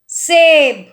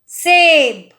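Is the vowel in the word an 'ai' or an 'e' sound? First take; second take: e; e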